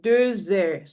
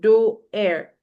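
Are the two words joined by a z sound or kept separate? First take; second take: joined; separate. First: A z sound links the first word to the second. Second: The words are said separately with no z sound. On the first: The speaker calls it right. "joining X and H together, it gives you the sound Z" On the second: The speaker calls it wrong. "not do air"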